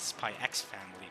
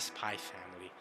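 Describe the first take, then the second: First: The letter X is spoken aloud. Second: The letter X is left out. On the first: "a lot of people actually pronounce it Spy X Family" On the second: "but I say Spy Family"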